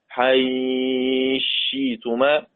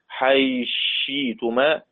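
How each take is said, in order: First: The vowel before the merged consonant is held medium. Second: The vowel before the merged consonant is held short. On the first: "توسط" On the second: "قصر"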